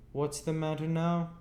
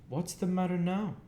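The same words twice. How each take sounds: First: Sharper sister. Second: Smart sister. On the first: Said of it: "more sharply than before". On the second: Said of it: "said she, smartly". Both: A narrator's reading.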